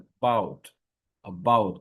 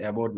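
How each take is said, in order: First: অ্যাবাউট with a short weak first vowel, "əbaut"; the corrected English অ্যাবাউট; correct about. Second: অ্যাবাউট with open "e" start, the habitual wrong way; the mistaken অ্যাবাউট; wrong Bengali-style about. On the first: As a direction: say অ্যাবাউট lightly starting with a schwa. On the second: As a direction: say অ্যাবাউট as locals usually do, "ebaut". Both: Shown as a demonstration. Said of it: "এটা কিন্তু অ্যাবাউট না".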